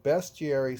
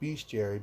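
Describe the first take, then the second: First: The first syllable has a short e, like 'best'. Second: The first syllable has a long e, like 'beast'. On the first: "seems to be the right way to say it, being there's only an E" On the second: "I got in the habit of saying bestiary because it's beasts"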